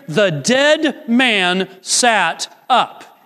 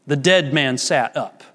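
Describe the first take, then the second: First: Very slow, deliberate. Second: Said in the usual way. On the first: Real, not acted. Preacher reads the verse to the congregation, very slow and weighty. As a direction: lean on each word of the verse, pausing between them.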